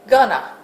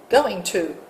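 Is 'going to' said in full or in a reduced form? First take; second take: reduced; full. First: The phrase is squeezed into a reduced form. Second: The phrase is said in full, clearly. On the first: The speaker calls it wrong. "words that people mispronounce" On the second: The speaker calls it right. "instead of going to"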